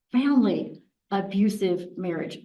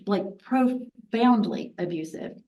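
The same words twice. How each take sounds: First: Said in the usual way. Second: Slow, weighty "profoundly abusive"; "profoundly" given slow, heavy emphasis; stress on profoundly. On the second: Real, not acted. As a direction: lean on "profoundly", drawn out slowly.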